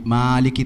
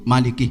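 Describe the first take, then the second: First: The first vowel is drawn out long. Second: The first vowel is kept short. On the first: The speaker calls it wrong. "tidak seperti itu" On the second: The speaker calls it right. "seperti itu"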